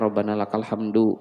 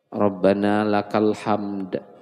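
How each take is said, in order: First: The last word ends with a final 'u' vowel. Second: The last word ends on the consonant 'd'. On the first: The speaker calls it wrong. "jangan lagi dibaca" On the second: The speaker calls it right. "Cara bacanya itu nah maksudnya yang paling bagus"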